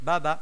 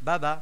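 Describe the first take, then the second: No difference in how they are said.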